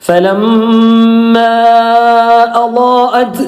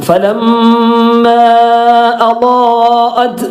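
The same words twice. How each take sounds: The two takes are said the same way.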